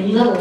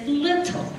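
First: The middle consonant sounds like a D. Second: The middle consonant is a clear T. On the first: The speaker calls it wrong. "We don't let them say little star" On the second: The speaker calls it right. "Those are not D's in that word"

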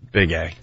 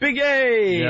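First: The name is said flatly and glumly. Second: The name is said in a cool, excited way.

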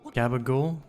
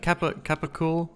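First: It starts with a g and ends clipped. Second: It starts with a k sound. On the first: This is the Italian-American way of saying it. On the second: This is the standard way of saying it.

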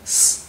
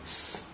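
No difference in how they are said.

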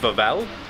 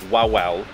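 First: The word begins with a V sound. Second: The word begins with a W sound. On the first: "in the Polish pronunciation, we think it's Wawel Castle. With a V" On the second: "which to us reads as Wawel. If English is your first language, it was read as that"

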